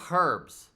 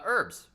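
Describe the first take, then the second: First: The word starts with an audible h sound. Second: The word starts without an h sound. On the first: The speaker calls it right. "which we should say herbs" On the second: The speaker calls it wrong. "I don't understand why we don't pronounce the H"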